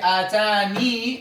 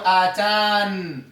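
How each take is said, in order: First: The word ends with a final 'ee' vowel. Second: The word ends on the n sound. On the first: "there are two ways to read it. Either you say atani" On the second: "or atan"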